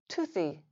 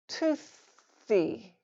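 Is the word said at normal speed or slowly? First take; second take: normal speed; slowly. First: The word is said at normal conversational speed. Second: The word is said slowly and drawn out. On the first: "then at normal speed" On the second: "once slowly"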